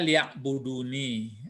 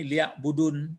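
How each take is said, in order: First: The word ends with an added i sound. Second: The word ends in a bare n sound. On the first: The speaker calls it right. "nun ini menompang ada ya di bawahnya gantinya aku" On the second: The speaker calls it wrong. "jangan dibaca ini liak budun"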